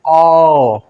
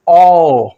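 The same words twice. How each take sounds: First: The vowel is said with spread lips. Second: The vowel is said with rounded lips. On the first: "ये जरा सा फैल जाएगा" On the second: "वो गोलाकार में खुलता है"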